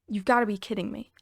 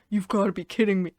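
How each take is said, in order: First: It is said in the speaker's normal voice. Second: It is said in a put-on deeper voice.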